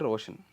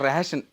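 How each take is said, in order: First: The first vowel sounds like 'o'. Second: The first vowel sounds like 'e'. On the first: The speaker calls it right. "నా పేరు రోషన్" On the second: The speaker calls it wrong. "రేషన్ అనేవాడు ఆయన"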